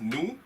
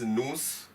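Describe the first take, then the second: First: The final s is left silent. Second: The final s is pronounced aloud. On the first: The speaker calls it right. "I'm reading it as" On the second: The speaker calls it wrong. "I'm not reading it as"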